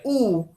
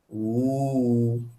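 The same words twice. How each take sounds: First: The vowel is kept short. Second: The vowel is held long. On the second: "Bunyi panjang depan"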